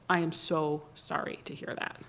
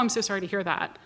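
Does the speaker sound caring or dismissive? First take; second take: caring; dismissive. First: It sounds slow and careful, with real concern. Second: It sounds quick and offhand, without real concern. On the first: The speaker genuinely cares. The speaker calls it right. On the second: The speaker does not really care. The speaker calls it wrong.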